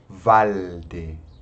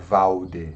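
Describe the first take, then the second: First: The L is made with the tongue touching. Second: The L sounds like a U vowel. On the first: The speaker calls it right. "você encosta a língua no céu da boca" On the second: The speaker calls it wrong. "Não pode pronunciar como se fosse um U"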